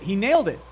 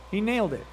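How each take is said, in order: First: Louder emphatic. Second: Said in the usual way. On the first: Real, not acted.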